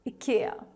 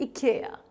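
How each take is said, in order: First: It is said with a Swedish pronunciation. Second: The same.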